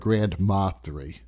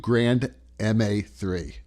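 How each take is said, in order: First: MA is said as one word, 'ma'. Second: MA is said as two separate letters. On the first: "Grand Ma" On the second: "Grand M A"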